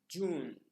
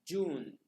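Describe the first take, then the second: No difference in how they are said.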